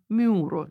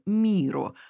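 First: The first vowel is rounded, like yu. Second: The first vowel is a plain unrounded i.

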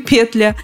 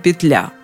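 First: The stress is on the first syllable. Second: The stress is on the second syllable. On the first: "Ударение либо на первом слоге" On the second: "либо на втором"

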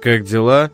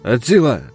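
First: The words are pronounced clearly and separately. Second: The words are slurred together and distorted. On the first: This is the ordinary form of the phrase. "Вместо «как дела»" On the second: This is how the man with distorted speech said it.

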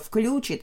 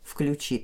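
First: The stress is on the first syllable. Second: The stress is on the last syllable. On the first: The speaker calls it wrong. "подтяжка" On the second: The speaker calls it right. "с ударением на окончание"

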